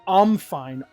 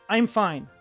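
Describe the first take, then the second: First: The first word is reduced to 'um'. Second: The first word is a full 'I'm'. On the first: The speaker calls it wrong. "I don't say ... it sounds weird" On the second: The speaker calls it right. "I say I'm all the time"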